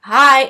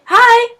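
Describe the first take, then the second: First: Loud hi at everyday pitch; short retold greeting, pushed louder; imitated awkward reply. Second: High, loud retold hi; an acted, high-pitched hello; pointed greeting. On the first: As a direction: mimic the kid's abrupt hello. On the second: Finally greeting the staring kid.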